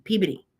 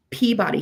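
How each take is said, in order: First: "Peabody" said PEE-bih-dee, light and quick; "Peabody" run together like P B D; local pronunciation. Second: "Peabody" said PEE-b'dee, middle vowel swallowed; local-style "Peabody" with a quick mumbled middle; local pronunciation. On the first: Showing chat the local "Peabody", said quick and slurred. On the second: Telling chat how locals say it, "Peabody" clipped. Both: Shown as a demonstration. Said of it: "like P B D".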